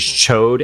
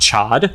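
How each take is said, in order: First: The vowel is long, as in 'code'. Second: The vowel is short, as in 'cod'. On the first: This is the official pronunciation. The speaker calls it right. "the name of the big lizard character is Chode and not Chod" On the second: This is how the speaker had read it. The speaker calls it wrong. "and not Chod"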